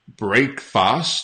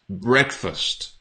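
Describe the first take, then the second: First: The second syllable sounds like 'fast'. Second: The second syllable sounds like 'fust'. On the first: The speaker calls it wrong. "It's not breakfast ... not fast" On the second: The speaker calls it right. "It's breakfast ... it's fust"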